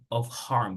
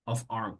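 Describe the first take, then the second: First: The H in harm is clearly pronounced. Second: The H is dropped, linking of into arm. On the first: The speaker calls it wrong. "you say not of harm" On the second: The speaker calls it right. "como si dijeras brazo"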